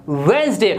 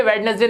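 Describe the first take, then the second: First: वेडनेसडे as two syllables, "WENZ-day"; silent D. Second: वेडनेसडे with D sounded, "WED-nes-day"; three syllables in वेडनेसडे; wrong pronunciation. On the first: Teacher repeats for learners, वेडनेसडे said "wenz-day". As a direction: drop the first D in वेडनेसडे. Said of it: "इसमें डी silent होता है". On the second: Teacher shows learners the mistake, वेडनेसडे with its D sounded. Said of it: "ये वेडनेसडे नहीं होता". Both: Shown as a demonstration.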